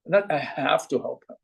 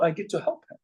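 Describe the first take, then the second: First: "have to" said lower and softer, like a burden; "Not" hit, "have to" said flat and heavy; stress on have to. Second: "get to" leaned on and said warmly; "get to" lifted, a privilege not a chore; stress on get to. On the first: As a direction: let "have to" drop as a duty you resent. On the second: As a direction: push "get to", as a gift you receive. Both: Shown as a demonstration.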